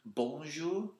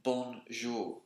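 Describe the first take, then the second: First: "Bonjour" with a little w glide in "Bon", rising; Montreal diphthong. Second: "Bonjour" with a simple vowel, falling at the end; school French. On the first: Showing how Montrealers greet, "Bonjour" with a diphthong in "Bon". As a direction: dip through a w sound inside "Bon" of "Bonjour". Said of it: "a little diphthong in the word bon". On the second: Showing what was taught at school, "Bonjour" with a plain vowel. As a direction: say "Bonjour" as British schools teach it, no glide. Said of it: "we were taught at school to say". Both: Shown as a demonstration.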